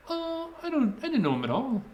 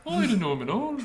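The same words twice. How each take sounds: First: Put-on [name] accent. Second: Put-on high teenage girl voice redone; teen shop clerk. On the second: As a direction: back to the girl's voice. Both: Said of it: "It started sounding like [name] there".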